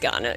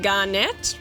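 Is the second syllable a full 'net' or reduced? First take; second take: reduced; full. First: The second syllable is reduced and weak. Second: The second syllable is a full 'net'. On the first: This is how it will be said from now on. The speaker calls it right. "sounds much better" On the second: This is how it was said in childhood. The speaker calls it wrong. "what nine-year-old wouldn't see net and think net"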